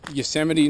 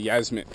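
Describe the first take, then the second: First: The name is said in its full form. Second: The name is said in a short, clipped form. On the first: The speaker calls it right. "I'll say it right" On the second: The speaker calls it wrong. "I used to say Yasmit"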